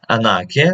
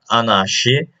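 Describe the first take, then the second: First: "anarchy" said as "AN-ar-kee", hard k; the right "anarchy", stress on the first syllable; correct pronunciation. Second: "anarchy" said as "anashy", with a sh sound; the mistaken "anarchy", sh in place of k; wrong pronunciation. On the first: Teacher correcting "anarchy" to a hard k. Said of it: "it is not anarchy, it is anarchy". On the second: Teacher showing a wrong "anarchy". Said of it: "it is not anarchy". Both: Shown as a demonstration.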